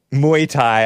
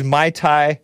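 First: Muay Thai pronounced "moo-ee tie". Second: Muay Thai pronounced like "my tie"; Muay said as Mai. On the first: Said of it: "I feel dumb calling it Muay Thai". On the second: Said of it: "should be pronounced Mai Tai". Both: Real, not acted.

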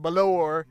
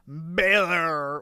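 First: "Balor" with the stress on the second syllable; alternative pronunciation. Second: "Balor" stretched out with stress up front; drawn-out first pronunciation. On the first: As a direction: say "Balor" as buh-LOR. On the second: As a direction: drag out the first syllable of "Balor". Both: Shown as a demonstration. Tries two pronunciations of surname.

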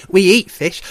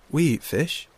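First: High, very loud otter voice; boisterous otter. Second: Said in the usual way. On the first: Acted. Shoreback explains what otters eat, loud and boisterous. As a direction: announce it proudly at full volume.

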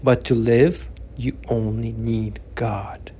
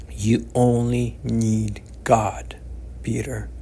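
First: A slow, unvoiced whisper, almost to himself. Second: Slow, gentle reassurance. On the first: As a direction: let the last words sink into a whisper. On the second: Acted. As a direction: say it slowly, like a calm old man reassuring. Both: Old man comforting Peter.

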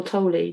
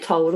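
First: "Tolle" said as TOH-lee; two-syllable Tolle. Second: "Tolle" said as one syllable, like toll. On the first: Host asking co-host which is right, "Tolle" as TOH-lee. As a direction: say "Tolle" with an ee sound on the end. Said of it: "I've heard people say both". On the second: Host unsure of the author's name, "Tolle" as one syllable. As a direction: say "Tolle" to rhyme with coal, no final vowel. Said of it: "Is it Tolle or Tolle?". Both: Shown as a demonstration.

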